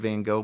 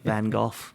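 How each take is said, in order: First: The name is said in a neutral accent. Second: The name is said in a Liverpool accent.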